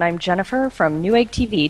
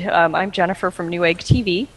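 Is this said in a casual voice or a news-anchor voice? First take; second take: news anchor; casual. First: It is said in a formal news-anchor voice. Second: It is said in an ordinary conversational voice.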